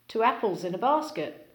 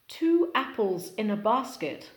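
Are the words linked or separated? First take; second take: linked; separated. First: The words run together with linking sounds. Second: Each word is said separately.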